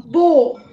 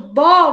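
First: The vowel is a closed o sound. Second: The vowel is an open o sound. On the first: The speaker calls it right. "você vai fazer com ele fechadinho" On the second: The speaker calls it wrong. "em vez de você fazer com o O aberto"

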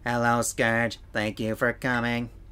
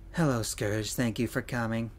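First: It is said in a put-on robotic voice. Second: It is said in a normal speaking voice.

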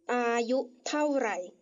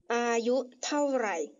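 The two takes are said the same way.

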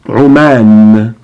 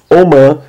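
First: It starts with a tight throat sound. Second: It starts with a plain vowel sound. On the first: "porém em árabe é Oman. U, com Ain" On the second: "Nós falamos Oman"

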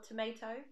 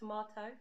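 First: Tomato is said with an American accent. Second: Tomato is said with a British accent. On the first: The speaker calls it wrong. "or tomato" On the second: The speaker calls it right. "when it's tomato"

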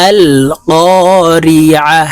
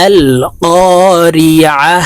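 No difference in how they are said.

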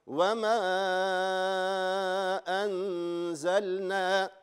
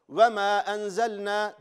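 First: The vowel in 'ma' is stretched for several seconds. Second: The vowel in 'ma' is held only briefly. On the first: This is a slow reading. "dört elif miktarı" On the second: This is a fast reading. "hızlı okurken"

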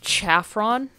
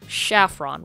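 First: The word begins with a ch sound. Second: The word begins with an sh sound. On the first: "with the CH" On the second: "with an SH"

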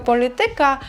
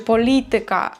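First: The stress is on the second-to-last syllable. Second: The stress falls before the second-to-last syllable. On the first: The speaker calls it wrong. "ти настільки звикаєш до того ж" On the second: The speaker calls it right. "правильно буде"

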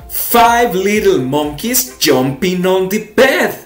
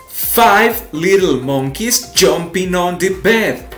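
No difference in how they are said.

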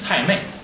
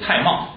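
First: The second syllable is pronounced mei. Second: The second syllable is pronounced mao. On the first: This is the traditional reading used by older storytellers. "老先生说蔡瑁都念蔡妹" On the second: This is the modern standard reading. "就按现在的读音念的，就是蔡瑁"

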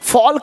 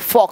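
First: An l sound is heard before the k. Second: No l sound is heard before the k. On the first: The speaker calls it wrong. "फॉल्क नहीं बोलेंगे" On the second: The speaker calls it right. "फॉक बोलेंगे"

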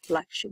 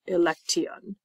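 First: The ending is said as 'shun'. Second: The ending is not said as 'shun'. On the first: The speaker calls it right. "It is pronounced like shun" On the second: The speaker calls it wrong. "not election"

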